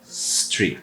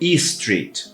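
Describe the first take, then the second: First: The word begins directly with the s sound. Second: An extra vowel sound comes before the s. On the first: The speaker calls it right. "é street" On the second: The speaker calls it wrong. "Eu não vou falar e street"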